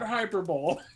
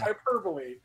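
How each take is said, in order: First: The word is said the way it is spelled. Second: The word is said in the usual way. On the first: The speaker calls it wrong. "that's how it's spelt, so that's how it's pronounced" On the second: The speaker calls it right. "Hyperbole, not hyperbole"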